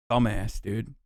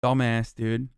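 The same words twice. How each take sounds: First: Low, soft disgusted mutter under the breath; muttered insult. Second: Low disgusted mutter; muttered insult. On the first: Streamer muttering at the politician, low and disgusted. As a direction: spit it out quietly with contempt. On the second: Muttered insult after rant. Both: Real, not acted.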